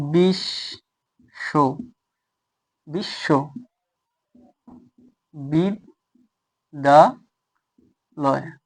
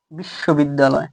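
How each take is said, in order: First: বিশ্ববিদ্যালয় very slowly, each syllable alone with a long pause between; syllable-by-syllable demonstration. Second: Said in the usual way. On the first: Shown as a demonstration. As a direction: spell out বিশ্ববিদ্যালয় by sound: বিশ, শো, বিদ, দা, লয়. (বিশ্ববিদ্যালয় একেকটা অক্ষরে ভেঙে, অনেক থেমে থেমে) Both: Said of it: "জায়গায় যদি লিখি যে কিভাবে".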